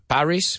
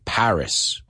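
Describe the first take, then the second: First: It is pronounced with Spanish sounds and stress. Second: It is pronounced with English sounds and stress. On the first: The speaker calls it wrong. "in English, we don't say Paris" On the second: The speaker calls it right. "We say Paris"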